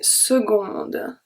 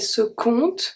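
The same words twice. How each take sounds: First: The c is sounded as a g. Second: The c is sounded as a k. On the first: The speaker calls it right. "I say seconde" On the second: The speaker calls it wrong. "I don't say seconde"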